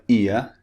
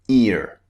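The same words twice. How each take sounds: First: It ends in a vowel with no R sound. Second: It ends with a pronounced R sound. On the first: "this is another vowel which we use in British English to replace the R sound" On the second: "In American English, this ear would be pronounced ear. They pronounce the R at the end"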